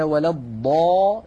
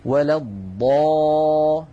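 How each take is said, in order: First: الضا stretched very slowly with a rise; long madd. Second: الضا stretched very long, slow and louder; long madd. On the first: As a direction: draw out the alif of الضا six beats. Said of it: "فالألف في قوله تعالى". (مد ألف الضا بتمهل) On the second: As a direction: hold the alif in الضا for six counts. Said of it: "هل رأيتم هذه الألف". (مد الألف في الضا ست حركات بتمهل) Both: Shown as a demonstration.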